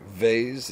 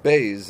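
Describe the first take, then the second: First: It begins with a soft fricative v sound. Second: It begins with a hard stop b sound. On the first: "Vez is the soft" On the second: "bez is the hard"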